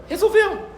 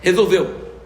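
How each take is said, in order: First: A sudden high-pitched "Resolveu."; high squeaky echo. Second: Said in the usual way. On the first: Acted. Preacher echoing the word, "Resolveu." squeaked high.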